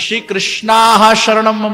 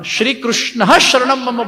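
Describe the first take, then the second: First: The name ends with a long 'aa' vowel. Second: The name ends without a final 'aa' vowel. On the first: The speaker calls it wrong. "नहीं बोलेंगे" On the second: The speaker calls it right. "मूल में अब हम श्री कृष्ण शरणम मम बोलेंगे"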